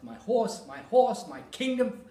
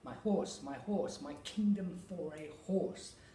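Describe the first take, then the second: First: Every beat is heavily overemphasized. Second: Only the important word gets natural emphasis.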